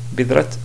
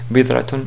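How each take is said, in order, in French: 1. Le mot se termine par un simple son t. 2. Le mot se termine par la terminaison -tun complète. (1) "vraiment, c'est pas correct" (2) "à la limite"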